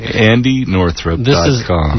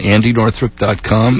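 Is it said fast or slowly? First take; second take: slowly; fast. First: It is said slowly. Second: It is said fast.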